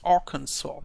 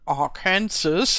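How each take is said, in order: First: The last syllable sounds like 'saw'. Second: The last syllable sounds like 'sass'. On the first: "I'm not so sure whether I pronounce it correctly" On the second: "something that is written like Arkansas"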